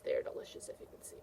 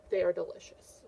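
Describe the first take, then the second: First: Hushed conspiratorial whisper; soft storytime whisper. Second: Said in the usual way. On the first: Acted. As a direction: whisper it like a funny secret. Teacher repeats child's answer.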